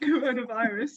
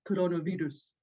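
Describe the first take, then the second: First: It is said with English pronunciation. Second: It is said with Spanish pronunciation.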